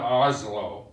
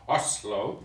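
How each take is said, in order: First: Oslo is said with an English-style pronunciation. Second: Oslo is said with a Norwegian-style pronunciation. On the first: The speaker calls it wrong. "that's a mispronunciation" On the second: The speaker calls it right. "It's Oslo"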